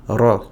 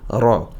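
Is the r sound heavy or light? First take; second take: heavy; heavy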